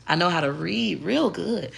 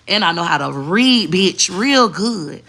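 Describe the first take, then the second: First: Soft, proper voice on "I know how to read real good.". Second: Louder and slow, "bitch, real good" drawn out with sass. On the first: Showing her proper voice to viewers, soft and proper. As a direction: say "real good" politely, toned down. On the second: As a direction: lean hard on "real good" like a clapback. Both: Shown as a demonstration. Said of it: "I know how to do both".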